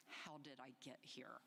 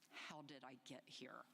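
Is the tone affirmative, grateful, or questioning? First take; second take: grateful; grateful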